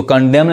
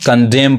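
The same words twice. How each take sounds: First: "कंडेम" with an N added after M; wrong pronunciation. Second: "कंडेम" ending on M; silent N. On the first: Teacher showing what to avoid, "कंडेम" with sounded final N. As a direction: say "कंडेम" as if ending in M-N. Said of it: "इसको कंडेम नहीं कहेंगे". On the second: Teacher correcting learners, "कंडेम" with silent N. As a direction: say "कंडेम" with no N after M. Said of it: "कंडेम पढ़ेंगे". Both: Shown as a demonstration.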